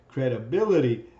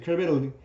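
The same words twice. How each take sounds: First: Each syllable is said clearly and separately. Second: The syllables are run together quickly. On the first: The listener understands the word and its meaning. The speaker calls it right. "you understand the word and what it means" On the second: The listener may not understand the word. The speaker calls it wrong. "then you haven't broken down syllables"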